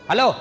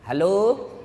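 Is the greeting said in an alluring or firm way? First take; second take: firm; alluring. First: It is said in a firm, curt, businesslike voice. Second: It is said in a soft, lilting, alluring voice.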